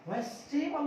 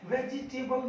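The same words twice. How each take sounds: First: वेजिटेबल squeezed to three syllables, "ves-te-bal"; correct वेजिटेबल. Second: वेजिटेबल in four syllables, "ve-ji-te-bal"; mispronounced वेजिटेबल. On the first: Teacher giving learners the right form, वेजिटेबल as "ves-te-bal". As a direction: drop the i in वेजिटेबल: "vestebal". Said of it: "वेजिटेबल होता है". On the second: Teacher rejecting the common form, वेजिटेबल as "ve-ji-te-bal". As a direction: sound the "ji" in वेजिटेबल. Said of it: "वेजिटेबल नहीं होता". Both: Shown as a demonstration.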